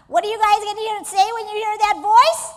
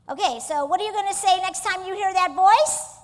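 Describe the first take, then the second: First: Pumped, louder and higher call to the crowd; rally them to answer louder; louder prompt. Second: Said in the usual way. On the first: Shown as a demonstration. Coach urges the audience after a lame reply, louder. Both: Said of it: "Oh, that was so lame".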